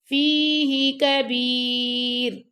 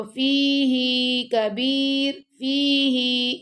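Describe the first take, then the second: First: فِيهِ with a short هِ, not lengthened; correct recitation. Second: فِيهِ with the هِ lengthened wrongly; wrong recitation. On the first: Teacher gives pupils the correct reading, short هِ in فِيهِ. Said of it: "ہی کو لمبا نہیں کرنا آپ نے". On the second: Teacher shows pupils the common error, هِ of فِيهِ drawn long. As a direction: stretch the final ہی in فِيهِ as the common mistake. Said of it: "یہ غلط ہے". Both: Shown as a demonstration.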